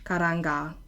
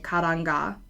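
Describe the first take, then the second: First: The two words are run together as one. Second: The same.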